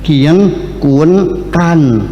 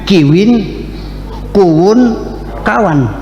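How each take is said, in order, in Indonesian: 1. Kata-kata itu diucapkan tanpa luncuran w. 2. Kata-kata itu diucapkan dengan luncuran w. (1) "Kalau dekat namanya kien, agak jauh kuen, kalau jauh sekali kan" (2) "Itu bukan begitu, bilangnya kiwin kuwun kawan"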